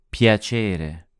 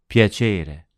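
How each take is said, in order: The two takes are said the same way.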